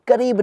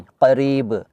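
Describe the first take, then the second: First: करीब said with a plain k. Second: करीब said with a deep back q; deep throat q. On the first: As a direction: say करीब with an ordinary क. (करीब में साधारण क) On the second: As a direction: say करीब with a uvular क़. (करीब में क़ का गहरा उच्चारण) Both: Shown as a demonstration. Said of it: "करीब नहीं".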